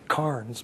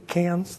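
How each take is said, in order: First: Cairns is said the speaker's own preferred way. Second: Cairns is said the way locals pronounce it. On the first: "I still say it should be Cairns" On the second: "Notice I pronounced that correctly"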